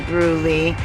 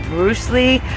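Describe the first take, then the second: First: The name has no s sound in the middle. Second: The name has an s sound in the middle. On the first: This is how locals say it. "they say Brew Lee" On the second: This is how an outsider says it. "I say Bruce Lee"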